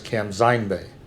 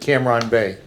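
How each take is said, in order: First: It is said with a northern Vietnamese Z sound. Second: It is said with a southern Vietnamese R sound.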